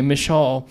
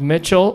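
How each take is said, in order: First: It is said with a French accent. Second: It is said with a plain American accent.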